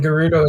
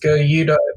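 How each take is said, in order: First: The middle consonant is an R sound. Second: The middle consonant is a Y sound. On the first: The speaker calls it right. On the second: The speaker calls it wrong.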